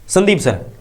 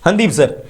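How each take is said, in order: First: The name begins with an s sound. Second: The name begins with an h sound. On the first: It is the standard way to say it. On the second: It is how speakers from one local region say it.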